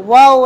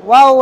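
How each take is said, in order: Both takes have the same delivery.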